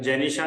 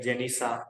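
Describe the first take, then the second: First: The middle consonant is a clear 'sh' sound. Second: The middle consonant is a plain 's' sound. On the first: This is how the name is normally said. "जेनिशा नहीं बोलेंगे" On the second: This is how someone who turns sh into s says it. "वो बोलेंगे जेनिसा ... बोलते ही श को स है"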